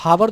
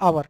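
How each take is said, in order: First: The word begins with an h sound. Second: The word begins directly with a vowel. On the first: The speaker calls it wrong. "हावर तो इसको पढ़ते नहीं हो" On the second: The speaker calls it right. "इसको पढ़ते हैं हम आवर"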